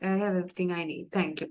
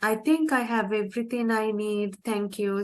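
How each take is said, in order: First: The tone sounds curt and rude. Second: The tone sounds warm and friendly. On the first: The speaker seems uninterested in the other person. The speaker calls it wrong. "Then it will sound rude" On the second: The speaker seems grateful and polite. The speaker calls it right. "if you say like that, it, it doesn't sound rude"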